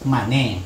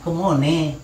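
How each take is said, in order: First: The word ends in an 'e' vowel after 'an'. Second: The middle vowel is 'o' and it ends in 'e'. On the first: This is how southern speakers say it. "kalau orang selatan itu bilang" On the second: This is how forest people say it. "Jadi orang rimba nak"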